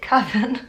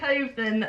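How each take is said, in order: First: The word rhymes with 'oven'. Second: The word does not rhyme with 'oven'. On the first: The speaker calls it right. "Like oven?" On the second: The speaker calls it wrong. "I'm just gonna carry on pronouncing it Coven"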